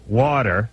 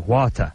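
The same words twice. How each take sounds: First: It is said in an American accent. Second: It is said in an English accent.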